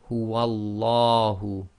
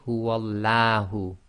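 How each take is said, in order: First: The L is heavy, said with a full mouth. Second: The L is light, said with a thin sound. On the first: The speaker calls it right. "makes the lam of Allah go tafkhim, that is full mouth" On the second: The speaker calls it wrong. "You cannot say"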